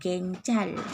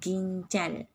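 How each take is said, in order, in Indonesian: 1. Vokal pertama terdengar seperti 'eh'. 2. Vokal pertama terdengar seperti 'ee'. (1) "Kita tak sebut genjal" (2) "Kita tak sebut genjal"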